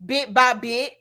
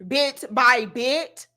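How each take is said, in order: First: Said in the usual way. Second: Bit by bit, drawn out slowly; slowed down. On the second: Shown as a demonstration. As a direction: spell it out slowly.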